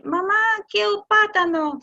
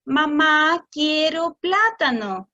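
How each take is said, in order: First: Put-on child asking. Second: Mamá louder, quiero plátano very slow and clear; slow model. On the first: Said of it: "El niño dice". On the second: Shown as a demonstration. Adult repeating child's request back, slowly and clearly. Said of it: "Lo que el adulto debería hacer es decir".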